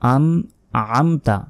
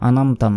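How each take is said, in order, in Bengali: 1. একটা গভীর গলার ধ্বনি স্বরধ্বনি দুটোকে আলাদা করে। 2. স্বরধ্বনি দুটো গলার কোনো শব্দ ছাড়াই একসাথে মিশে যায়। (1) "আইন এখানে মোটাভাবে মানে গলার ভেতর থেকে উচ্চারণ হবে" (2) "আনামতা নয়"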